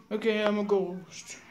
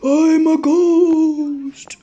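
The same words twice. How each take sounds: First: Said in the usual way. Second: Very slow, higher and louder spooky ghost moan.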